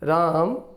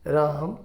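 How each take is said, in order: First: The name is said somewhat loudly. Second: The name is said softly and quietly. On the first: "फिर थोड़ा ज़ोर से" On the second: "softly धीरे से कहो, पहले तो"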